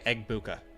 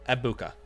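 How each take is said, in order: First: The name is said with a G sound. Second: The name is said without a G sound. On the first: The speaker calls it wrong. "I'll try not to say Egbuka anymore" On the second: The speaker calls it right. "you're not supposed to pronounce the G"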